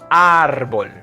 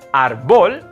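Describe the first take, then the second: First: The stress is on the first syllable. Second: The stress is on the second syllable. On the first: The speaker calls it right. "it's on the A" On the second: The speaker calls it wrong. "It's not on the O"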